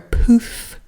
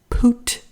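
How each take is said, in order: First: The name ends with an f sound. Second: The name ends with a t sound. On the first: "or Poof?" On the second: "Is it Poot"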